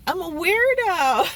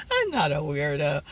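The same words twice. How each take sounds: First: High, loud mock announcement; playful declaration. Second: Dropped low after giggling; mock-serious retraction. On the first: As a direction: proclaim it in fun, about to laugh. Hams up a self-label. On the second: Real, not acted. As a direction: take it back in a low voice. Takes back the joke label.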